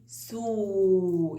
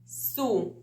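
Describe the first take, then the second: First: سو with the u held long; long vowel. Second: سو with a brief u sound; short vowel. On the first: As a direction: stretch سو on a steady note. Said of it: "يطول الضمة". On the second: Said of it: "قصيرة". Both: Shown as a demonstration.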